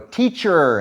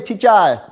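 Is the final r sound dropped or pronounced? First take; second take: pronounced; dropped. First: The final r sound is pronounced. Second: The final r sound is dropped. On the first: The speaker calls it right. "and I go teacher" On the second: The speaker calls it wrong. "they can't say er, so they don't say teacher"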